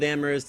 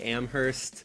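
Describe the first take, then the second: First: The h sound is left out entirely. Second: The h sound is pronounced in the middle. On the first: The speaker calls it right. "I'm being told to uh, remove the H" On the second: The speaker calls it wrong. "I have this deep phonetic sense of justice that makes me want to uh, just say Amherst"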